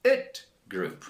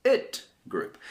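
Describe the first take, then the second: First: "it group" with the ending said as a full "it" syllable; ending pronounced "it". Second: "It group" repeated, the "It" syllable pitched up; ending pronounced "it", pitched higher. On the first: English teacher modeling the past-tense ending, clear demo. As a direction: demonstrate the "it" ending for the class. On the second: Teacher repeating the past-tense ending, clear demo. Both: Shown as a demonstration. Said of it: "And this group is the".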